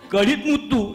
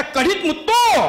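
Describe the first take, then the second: First: Said in the usual way. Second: Mother-in-law crying out, pitched up; mock cry. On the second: Mother-in-law cries out as the pearl drops. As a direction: call out the words in alarm. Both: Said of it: "त्या जोरात ओरडल्या".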